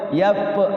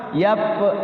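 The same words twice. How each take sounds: The two takes are said the same way.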